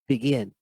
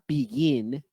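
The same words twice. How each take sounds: First: The first vowel is a dark, relaxed short i. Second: The first vowel is a tense 'ee' sound. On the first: The speaker calls it right. "No. Begin" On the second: The speaker calls it wrong. "It's not begin"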